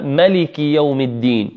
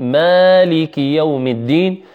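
First: ملك with a short a, "maliki"; Qalun and Warsh reading. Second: مالك with a long aa, "maaliki"; Asim's reading. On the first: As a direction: keep the first vowel of ملك short. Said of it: "وقالون وورش يقرؤون". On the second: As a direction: lengthen the first vowel of مالك. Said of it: "شيخهما عاصم". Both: Shown as a demonstration.

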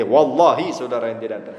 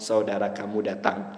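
First: "Wallahi" pressed a little harder, a mild swear-to-God insistence; emphatic oath. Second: Said in the usual way. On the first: Shown as a demonstration. Teacher's example of swearing needlessly to a trusting listener, with "Wallahi" leaned on. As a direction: lean on "Wallahi" to make it sure. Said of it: "wallahi itu kan taukid".

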